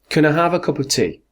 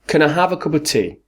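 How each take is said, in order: Both takes have the same delivery.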